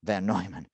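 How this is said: The name is pronounced the German way.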